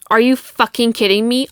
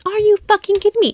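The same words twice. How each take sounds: First: Said in the usual way. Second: Much higher, fast, incredulous yell; outraged disbelief. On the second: Retold or imitated. Recounting his lie to her podcast listeners, outraged high disbelief. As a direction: fire it back, can't believe what you heard.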